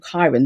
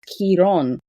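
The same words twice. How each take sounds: First: The name is pronounced the English way. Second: The name is pronounced the Greek way. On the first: "the Latin translation, or the way we say it in English" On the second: "in Greek, it's said, and it's pronounced as chiron"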